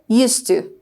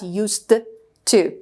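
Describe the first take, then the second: First: The two words are blended into one smooth unit. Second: The two words are pronounced separately and fully. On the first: The speaker calls it right. "if you want to just uh, say that fluently, you should say used to" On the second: The speaker calls it wrong. "Not used to"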